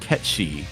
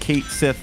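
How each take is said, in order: First: The name is said the Gaelic way, ending 'shee'. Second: The name is read like English, ending 'th'. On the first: This follows the name's original language. The speaker calls it right. "the actual pronunciation is Ketchi because it's like Gaelic" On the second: This follows how the spelling looks in English. The speaker calls it wrong. "I originally said Kate Sith as well because that's what it looks like"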